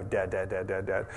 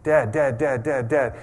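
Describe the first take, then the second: First: Softer, lower mock kid nagging Dad; a quiet, droning Dad on repeat; kids pestering softly. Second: Put-on louder, insistent kid calling Dad; kids pestering. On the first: Kids nag their dad at his phone, soft and droning. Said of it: "They just go". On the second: Kids calling for their distracted dad, loud and insistent. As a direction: keep calling till he looks up. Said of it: "I think of my kids".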